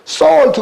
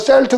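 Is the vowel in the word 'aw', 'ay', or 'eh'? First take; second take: aw; eh. First: The vowel sounds like 'aw', as in saw. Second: The vowel sounds like 'eh', as in sell. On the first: The speaker calls it right. "솔트 그래야 되는데" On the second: The speaker calls it wrong. "어떤 아이들이 이걸 처음 나오면 셀트 그럴 거란 말이에요"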